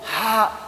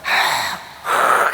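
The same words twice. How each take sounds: First: A soft, ordinary breathy h sound. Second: A harsh, raspy h from deep in the throat. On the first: The speaker calls it wrong. "그냥 보통 하" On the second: The speaker calls it right. "막 가래침 맺는 소리예요"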